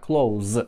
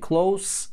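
First: The final consonant is a voiced z sound. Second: The final consonant is a voiceless s sound. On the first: "Звонкий" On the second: "Глухой звук"

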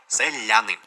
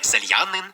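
First: The soft l goes straight into a. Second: A distinct y glide comes before a. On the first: The speaker calls it right. "я це лише а" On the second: The speaker calls it wrong. "не сельянин"

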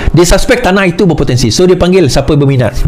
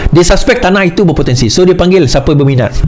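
The two takes are said the same way.

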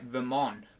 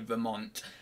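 First: The T sound is left silent. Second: The T sound is clearly pronounced. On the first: The speaker calls it wrong. "I always think there's a silent T on Vermont, so it's like Vermont" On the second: The speaker calls it right. "but it's not, is it? It's actually Vermont"

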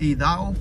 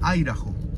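First: The name is read out the way it's spelled. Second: The name is said in its local pronunciation. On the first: This is how the name is written. "Se escribe Idaho" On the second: This is how the name is actually said. "pero se pronuncia Idaho"

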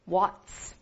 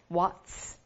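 First: It is said as one syllable ending in ts. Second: The same.

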